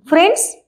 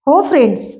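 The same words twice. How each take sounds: First: "friends?" high and rising at the end; high-pitched questioning tune on "friends?"; hopeful question. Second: Said in the usual way. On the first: A narrator's reading. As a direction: ask "friends?" with a child's upward lift. Boy offers friendship to his aunt.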